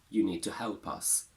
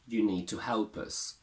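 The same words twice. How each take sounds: First: The final word has a full vowel. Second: The final word has a reduced vowel. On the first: "us can be heard in its strong form" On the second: "They go weak not only inside a sentence, but also at the end"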